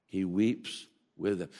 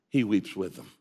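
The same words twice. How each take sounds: First: Much softer, slower "He weeps with them"; hushed and tender, as if moved yourself; soft, tender repeat. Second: Said in the usual way. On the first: Shown as a demonstration. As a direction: let the line sink in quietly.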